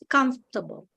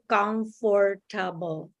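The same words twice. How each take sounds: First: The word is squeezed into only two syllables. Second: Every syllable of the word is pronounced fully. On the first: This is how native English speakers say it. "here they I think they only say two syllables" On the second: This is how it is said in the speaker's home country. "we say comfortable. So uh, it's all it's like every syllable"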